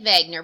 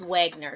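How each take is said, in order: First: The name begins with a V sound. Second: The name begins with a W sound. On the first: This is the German pronunciation. "the W is pronounced with a V" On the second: This is the common American pronunciation. "a lot of the videos made in the United States and America as Wegener"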